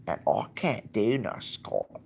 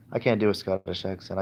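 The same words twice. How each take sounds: First: Slow Scottish attempt sliding into Cockney; badly faked Scottish, more like Cockney; failed Scottish accent. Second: Said in the usual way. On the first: Vlogger attempting a Scot for fun, Cockney-sounding Scottish accent. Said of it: "that's like Cockney".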